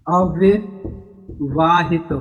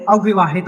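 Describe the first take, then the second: First: अविवाहित drawn out very slowly in separate parts; slow syllable breakdown. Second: Said in the usual way. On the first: Shown as a demonstration. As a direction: break अविवाहित into slow pieces with a pause inside. Teacher breaks the term up slowly.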